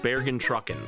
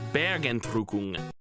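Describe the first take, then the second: First: The word ends with an 'en' sound. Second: The word ends with an 'ung' sound. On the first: The speaker calls it wrong. "it's not pronounced Bergentrucken" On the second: The speaker calls it right. "That song is called Bergentrukung"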